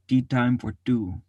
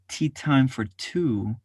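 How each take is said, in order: First: The T is pulled back and softened toward D. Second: The T is crisp, made at the tongue tip. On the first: "Pull back from the edge of your tongue and make it more of a D T sound" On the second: "put it on the edge of your tongue"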